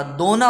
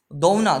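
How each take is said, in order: First: दोना said slow with a pure o vowel, do-na; slow, careful pure o in दोना; correct pronunciation. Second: दौना said with a clear au diphthong, d-au-na; wrong form दौना, au vowel; wrong pronunciation. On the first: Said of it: "दोना होता है". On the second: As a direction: stretch the au in दौना. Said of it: "दौना नहीं होता". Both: Shown as a demonstration.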